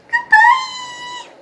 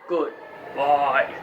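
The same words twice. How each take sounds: First: It is said in a squeaky voice. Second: It is said in a deep voice.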